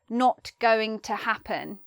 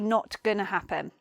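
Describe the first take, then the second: First: 'Going to' is said in full. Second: 'Going to' is shortened to 'gonna'. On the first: The speaker calls it wrong. "We wouldn't say not going to happen because it's not as um, it's not as fierce" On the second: The speaker calls it right. "So we shorten it to say"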